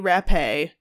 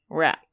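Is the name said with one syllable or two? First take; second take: two; one. First: The name is said with an accented final syllable. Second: The name is said as one plain syllable. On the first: The speaker calls it wrong. "Other people say Rappe. There's no accent" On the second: The speaker calls it right. "named Virginia Rapp"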